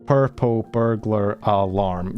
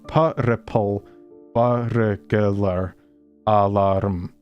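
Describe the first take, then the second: First: It is said plainly with six syllables. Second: It is said with extra Scottish-style syllables.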